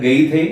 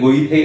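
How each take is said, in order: First: The name has an 'ay' vowel and a 'th' sound. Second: The name has an 'oy' vowel and a 'th' sound. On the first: "സാധാരണയായിട്ട് ഗെയ്ഥെ അല്ലെങ്കിൽ ഗൊയ്ഥെ എന്നൊക്കെയാണ് നമ്മൾ എഴുതുന്നത്" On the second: "സാധാരണയായിട്ട് ഗെയ്ഥെ അല്ലെങ്കിൽ ഗൊയ്ഥെ എന്നൊക്കെയാണ് നമ്മൾ എഴുതുന്നത്"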